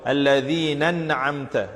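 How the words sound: The two words run together as one.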